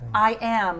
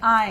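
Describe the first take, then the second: First: It is said as two full separate words. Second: It is squeezed into one contracted syllable.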